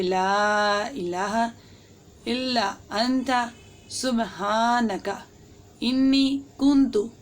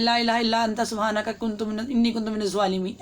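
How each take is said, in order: First: Very slow, each word spaced and fully pronounced; the right way, unhurried and precise; slow careful recitation. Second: Fast, run-together recitation of the verse; the wrong way, hurried and slurred; rushed recitation. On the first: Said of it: "proper तलफ़ुज़ के साथ पढ़ना है". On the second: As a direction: gabble it quickly the careless way. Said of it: "ऐसे नहीं पढ़ना". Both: Shown as a demonstration.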